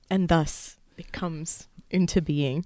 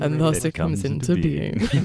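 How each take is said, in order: First: It is said in an ordinary speaking voice. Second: It is said in a deeper, dramatic voice. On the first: The speaker calls it wrong. "I should have said that in a deeper voice" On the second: The speaker calls it right. "That would have been so much better"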